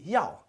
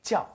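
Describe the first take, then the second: First: The word begins with a y sound. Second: The word begins with a j sound. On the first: It means to want. The speaker calls it wrong. "if we pronounce it without a J, it would be yao" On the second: It means to be called. The speaker calls it right. "we should pronounce it like a J"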